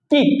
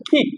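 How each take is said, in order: First: কিক as the usual Bangla word; কিক with a plain Bangla k; common wrong way. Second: কিক with a breathy English k; কিক, aspirated "kh" start; correct way. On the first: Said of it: "আমরা বলি কিক". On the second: Teacher gives the right কিক. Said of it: "না, এটা হচ্ছে কিক". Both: Shown as a demonstration.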